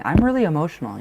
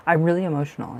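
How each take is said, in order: First: Said in the usual way. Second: Breathy laughing half-whisper, quicker. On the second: Real, not acted. Reader to her viewer, moved, laughing under her breath. Tearing up during a tarot reading.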